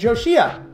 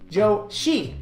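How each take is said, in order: First: The name ends with an extra 'ah' syllable. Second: The name ends with a plain 'ee' sound. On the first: The speaker calls it wrong. "not Joshia" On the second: The speaker calls it right. "Joshi, not Joshia"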